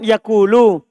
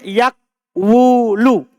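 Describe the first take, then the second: First: It has a long u after k, no w. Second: It has a w sound right after k. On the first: This is the form actually used. "Kan yakulu" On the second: This is the underlying original form. "Aslinya yakwulu"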